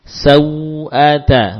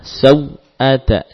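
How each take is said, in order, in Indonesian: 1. Bunyi luncur mengalir lancar tanpa putus. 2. Bunyi luncur terputus secara tiba-tiba.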